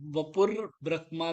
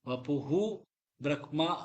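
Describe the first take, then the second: First: The word ends with an 'r' linked onward. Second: The word ends with a breathy 'huhu' sound. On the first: The speaker calls it right. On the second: The speaker calls it wrong.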